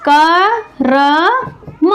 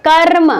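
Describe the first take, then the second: First: कर्म very slowly as क, र, मा with gaps; split into sounds. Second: कर्म in one piece, र held into म; joined-up word. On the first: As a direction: pull कर्म apart into three long sounds. (कर्म को क, र, मा में तोड़कर धीरे बोलें) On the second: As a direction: roll the r straight into म in कर्म. (कर्म को एक साथ, र खींचकर बोलें) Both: Shown as a demonstration. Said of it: "बोल के देखिए".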